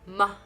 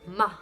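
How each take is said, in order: First: The consonant is followed by a vowel sound. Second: The same.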